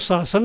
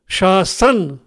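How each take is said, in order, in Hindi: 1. दोनों सिसकारी वाली ध्वनियाँ एक ही ध्वनि हैं। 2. यह 'sh' से शुरू होता है और बीच में 's' है। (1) "और शासन नहीं है" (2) "अगर ये शासन है"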